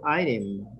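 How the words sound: The word is said with an American pronunciation. "or item, America"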